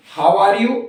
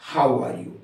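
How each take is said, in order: First: "how are you" with "hao" for how, rising on "you"; first accepted "how". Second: "how are you" with "hau" for how, falling at the end; second accepted "how". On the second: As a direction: say "how are you" low and softer, dropping away. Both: Shown as a demonstration. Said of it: "दोनों ठीक है".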